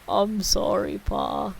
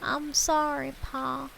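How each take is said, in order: First: It is said in a deep, gravelly voice. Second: It is said in a normal voice.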